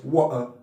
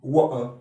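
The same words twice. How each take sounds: First: The middle t becomes a glottal stop. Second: The same.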